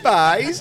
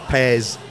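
First: It is said in a Falkirk accent. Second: It is said in a Dundee accent.

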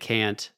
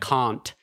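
First: It is said in the speaker's plain ordinary accent. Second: It is said with an imitated foreign-sounding accent. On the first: This is the usual way to say it. The speaker calls it right. "instead of" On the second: This is how the singer says it. The speaker calls it wrong. "the way she says"

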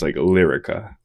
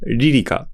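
First: The name is said with English pronunciation. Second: The name is said with Japanese pronunciation. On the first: "I thought about it in English, it's Lyrica" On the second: "Say it in Japanese again?"

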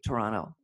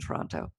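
First: The second t is swallowed. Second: The second t is clearly pronounced.

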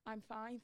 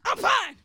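First: It is said in a calm, ordinary tone. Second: It is said loudly and harshly. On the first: The person is simply answering politely. "they're probably saying it in a normal tone" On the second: The person seems to be troubled inside. "But I hear"

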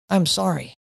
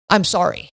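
First: It is said softly with sincere remorse. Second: It is spat out sharply and aggressively. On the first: The speaker truly regrets the hurt caused. The speaker calls it right. "the one who does carry remorse says" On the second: The speaker feels no regret for the hurt caused. The speaker calls it wrong. "aggressively spurts out"

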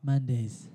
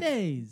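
First: It is said with a weary sigh. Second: It is said in an upbeat, excited way.

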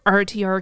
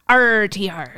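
First: The word is said plainly, without extra force. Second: The word is said harder, with extra force. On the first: The speaker calls it wrong. "You must pronounce that right" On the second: The speaker calls it right. "I'll do it a little harder"

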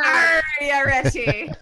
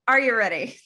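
First: It is said in a put-on pirate voice. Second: It is said in his normal voice.

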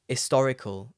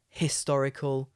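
First: The word begins without any h sound. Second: The word begins with an audible h sound. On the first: "often I don't pronounce the H, I just say historical" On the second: "a historical town"

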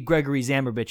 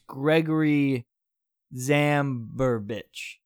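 First: The name is said at a normal, confident pace. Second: The name is said very slowly and hesitantly. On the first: The speaker calls it wrong. "It wouldn't be Gregory Zabrovich" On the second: The speaker calls it right. "you just say it really slow, like you don't know what it is"

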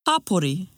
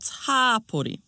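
First: All the vowels are said short. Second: One vowel is drawn out long. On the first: The speaker calls it right. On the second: The speaker calls it wrong.

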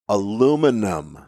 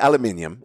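First: The word is said as aluminum. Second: The word is said as aluminium.

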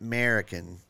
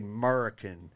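First: The second syllable sounds like 'mer'. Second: The second syllable sounds like 'mur'. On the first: The speaker calls it wrong. "not M-E-R" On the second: The speaker calls it right. "I say American, M-U-R"

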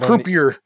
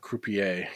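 First: The word has a plain English pronunciation. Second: The word has a refined, French-like pronunciation. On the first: "the English croupier" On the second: "because it sounds more refined"

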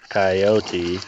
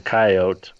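First: The word is said with three syllables. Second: The word is said with two syllables. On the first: "the three-syllable pronunciation" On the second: "the two-syllable pronunciation"

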